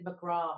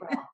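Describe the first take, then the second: First: The name is said in a posh, refined way. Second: The name is said plainly, with a swallowed ending. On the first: The speaker calls it wrong. "always make me sound sophisticated, McGraw or something" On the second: The speaker calls it right. "you got to like swallow that"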